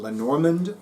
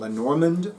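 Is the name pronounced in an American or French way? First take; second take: American; American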